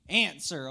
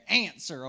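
First: "Answer" drawn out with a country twang; "Answer" said with a playful country twang. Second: Said in the usual way. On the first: Shown as a demonstration. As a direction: lean into a little Southern country drawl on "Answer". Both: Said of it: "that's my little country twang in there".

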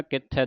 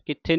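First: ਕਿੱਥੈ said with open ai ending; ਕਿੱਥੈ as taught; correct pronunciation. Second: ਕਿੱਥੇ said with e ending; ਕਿੱਥੇ as the common error; wrong pronunciation demo. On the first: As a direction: model ਕਿੱਥੈ with ai. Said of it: "ਦਲਾਵਾਂ ਦੇ ਨਾਲ". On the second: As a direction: show the mistake ਕਿੱਥੇ. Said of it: "ਕਿੱਥੇ ਨਹੀਂ ਪੜ੍ਹ ਦੇਣਾ". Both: Shown as a demonstration.

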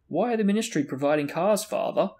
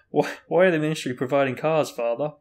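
First: Higher, formal question; stately, slightly self-important; dignified. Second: Measured, formal question; a touch loud and stately; dignified. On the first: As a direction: ask with stiff dignity. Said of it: "Percy asked again in a dignified voice". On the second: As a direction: ask with composed dignity. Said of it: "asked again in a dignified voice". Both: A narrator's reading.

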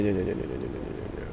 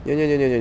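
First: Repeated nos sinking softer until breathless whisper; fading to a whisper. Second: Said in the usual way. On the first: Real, not acted. Player sinking into despair, nos fading to a whisper. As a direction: let the denial die away into a whisper.

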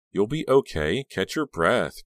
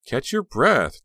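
First: Higher, insistent reassurance; encouraging, lifted voice; urging. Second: Louder, altered friend's voice; a touch of hoarse menace; low and hoarse. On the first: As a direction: urge a distressed friend to calm down. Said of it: "Caroline urged her". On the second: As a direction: repeat it in a strangely changed voice. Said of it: "low and hoarse". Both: A narrator's reading.

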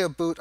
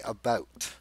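First: "a boot" said with a long oo, like two words; the stereotyped Canadian "a boot" with an oo sound; Canadian stereotype aboot. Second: "about" with the ordinary ow sound, said lower and softer; "about" as he really says it, with an ow sound; plain about. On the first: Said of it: "But I don't say". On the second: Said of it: "I say". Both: Shown as a demonstration.

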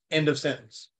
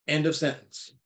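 Both takes have the same delivery.

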